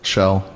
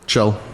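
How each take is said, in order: First: The name begins with a sh sound. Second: The name begins with a ch sound. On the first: This is how the family says the name. "that's not what my family says" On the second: This is how Scandinavians say the name. "have you heard a person of Scandinavian descent pronounce the K J?"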